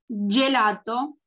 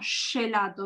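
First: It starts with a blocked 'j' sound. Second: It starts with a flowing 'sh' sound. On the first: The speaker calls it right. "cuando yo digo G, lo estoy trabando" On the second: The speaker calls it wrong. "y no gelato. ¿Ven que ahí el aire sale?"

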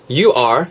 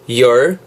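First: It is said as two full words. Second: It is run together into one syllable.

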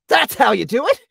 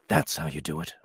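First: It is said with lively emotion. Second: It is said flat, without emotion.

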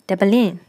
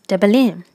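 Both takes have the same delivery.

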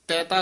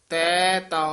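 First: The two words are run together quickly. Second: The two words are drawn out and separated. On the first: The speaker calls it wrong. "ਇਕੱਠਾ ਨਹੀਂ ਕਹਿਣਾ" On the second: The speaker calls it right. "ਇਉਂ ਲਮਕਾ ਕੇ ਬੋਲਣਾ"

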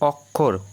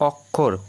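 First: The middle cluster is pronounced with a kh sound. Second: The middle cluster is pronounced with a kh sound.

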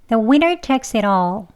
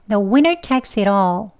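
Both takes have the same delivery.

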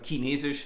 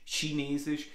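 First: It is said with a Bavarian accent. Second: It is said in standard German.

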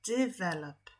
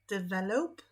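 First: The stress is on the first syllable. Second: The stress is not on the first syllable. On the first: The speaker calls it right. "Czyli akcent pada na pierwszą sylabę" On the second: The speaker calls it wrong.

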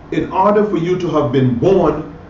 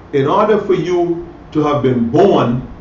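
The two takes are said the same way.

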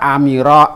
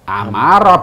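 First: The vowel after the m is i. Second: The vowel after the m is a. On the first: The speaker calls it wrong. "Kalau kita membaca amiro salah" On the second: The speaker calls it right. "Amaro betulnya"

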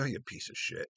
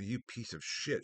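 First: It is said in a joking, lighthearted tone. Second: It is said in a serious, hostile tone.

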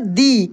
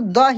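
First: It is said with a long 'ee' vowel. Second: It is said with a short, weak vowel. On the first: The next word starts with a vowel sound. "इसको हम लोग पढ़ेंगे दी" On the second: The next word starts with a consonant sound. "T H E लिखा रहेगा तो द ही पढ़ेंगे"

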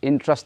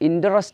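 First: The word is said as two syllables. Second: The word is said as three full syllables. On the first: The speaker calls it right. "interest ennalla interest interest interest na parayullo" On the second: The speaker calls it wrong. "Idu orikkalum interest ennu ningal uchcharikkarathu"

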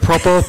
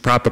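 First: It is said in a put-on British accent. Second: It is said in a plain American accent.

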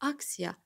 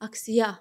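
First: The stress is on the first syllable. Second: The stress is on the last syllable. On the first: The speaker calls it right. "Demək vurğu hardadır? Birdə" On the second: The speaker calls it wrong. "Sona atın"

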